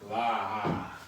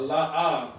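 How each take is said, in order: First: One syllable with the vowel dragged out long. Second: Two separate parts with a break between them. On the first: The speaker calls it wrong. "It don't even sound right. ... You just dragging out the A" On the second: The speaker calls it right. "but la ah, right?"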